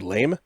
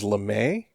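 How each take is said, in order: First: The name is said with one syllable. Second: The name is said with two syllables. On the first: This is the rejected pronunciation. The speaker calls it wrong. "as opposed to Lame" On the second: This is the guessed correct pronunciation. The speaker calls it right. "which I'm going to assume is LeMay"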